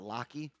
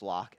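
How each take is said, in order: First: The name ends with an extra ee vowel. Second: The name ends on the k sound, no vowel. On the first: The speaker calls it wrong. "not Locky" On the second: The speaker calls it right. "I'm assuming it's Locke"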